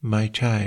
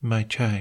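The two takes are said the same way.

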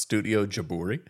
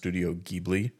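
First: The name is said with a Japanese pronunciation. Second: The name is said with an English pronunciation. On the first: The speaker calls it right. "It's actually pronounced Studio Jaburi" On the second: The speaker calls it wrong. "it's also not pronounced Studio Ghibli in Japanese"

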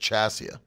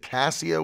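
First: The name begins with a CH sound. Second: The name begins with a K sound.

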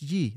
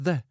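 First: The word begins with a y sound. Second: The word begins with a th sound. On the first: The speaker calls it wrong. "It's not pronounced ye" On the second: The speaker calls it right. "it's pronounced the"

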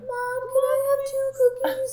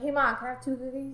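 First: It sounds cute and childlike. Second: It sounds grown-up and matter-of-fact.

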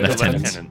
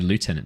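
First: The first part sounds like 'lef', with an f. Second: The first part sounds like 'loo', without an f. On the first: This is the English or Australian way of saying it. "That's how you say it if you're English or Australian" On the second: This is the American way of saying it. "In Americans"

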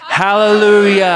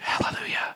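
First: It is shouted loudly with primal energy. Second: It is said quietly and calmly.

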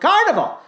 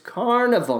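First: The word is said loudly and excitedly. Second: The word is said calmly and gently. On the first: The title has an exclamation point. The speaker calls it wrong. "with an exclamation point" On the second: The title has no exclamation point. The speaker calls it right. "It's a gentle show"

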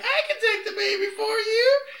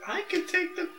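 First: It is said in a ridiculous put-on voice. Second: It is said in a normal voice.

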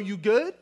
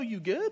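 First: The question sounds threatening and confrontational. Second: The question sounds caring and concerned. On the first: The speaker is challenging the listener. "this could be a threatening question" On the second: The speaker is offering help. "Like, you need something? Can I help you out?"

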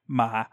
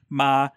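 First: The pitch starts low and falls further. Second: The pitch stays level in the middle. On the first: "a low falling" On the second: "a mid flat"

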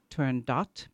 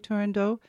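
First: The final T is sounded. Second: The final T is silent. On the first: "there should be an extra T and an E at the end" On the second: "many people say you should say Turandot"

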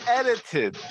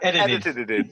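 First: The word is said with its normal three syllables. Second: The word is said with extra repeated syllables. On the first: The speaker calls it right. "It's edited" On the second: The speaker calls it wrong. "Not edited"

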